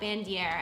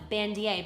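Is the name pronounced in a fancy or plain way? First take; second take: plain; fancy. First: The name is pronounced in a plain, ordinary way. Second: The name is pronounced in a fancy, elaborate way. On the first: This is how other people say it. "maybe some people call it Bandier" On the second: This is how the speaker prefers to say it. "I like to call it Bandier because it sounds fancy"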